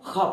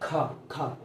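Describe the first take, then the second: First: The first sound is a throaty friction sound. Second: The first sound is an aspirated stop. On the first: "हवा बाहर आनी चाहिए" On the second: "इसको हम normal खा पढ़ते हैं"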